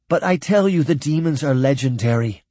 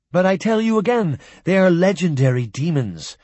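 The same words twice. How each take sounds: First: Pressing the point, a touch louder; refusing to be doubted; insisting. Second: Higher, louder protest. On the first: Jock to the humans, insisting. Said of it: "Jock insisted". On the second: Jock protesting again to disbelieving humans, higher and louder. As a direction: push back harder, almost pleading. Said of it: "Jock protested". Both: A narrator's reading.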